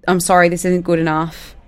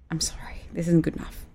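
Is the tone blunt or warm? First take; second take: blunt; warm. First: It sounds blunt and harsh. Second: It sounds calm, unhurried and warm. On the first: The criticism comes across as brutal. The speaker calls it wrong. "those words are pretty brutal" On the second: The same criticism comes across as caring. The speaker calls it right. "here's how you could say it if you embody these viewpoints"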